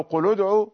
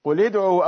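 First: قل ادعوا with a damma on the lam, qul-u-d'u; damma linking. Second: قل ادعوا with a kasra on the lam, qul-i-d'u; kasra linking. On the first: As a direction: join قل ادعوا with a short u. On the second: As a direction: join قل ادعوا with a short i. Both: Shown as a demonstration. Teacher contrasting the vowel readings. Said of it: "بالكسر أو الضم".

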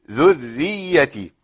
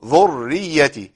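First: ذريتي with the doubled r thin and light. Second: ذريتي with the doubled r thick and emphatic; heavy r mistake. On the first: Teacher giving the correct light r in ذريتي. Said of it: "مرققة". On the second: Teacher imitating the common wrong heavy r. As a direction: give the ر of ذريتي a heavy, back-of-mouth sound. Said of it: "كتير من الناس يفخم الراء". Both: Shown as a demonstration.

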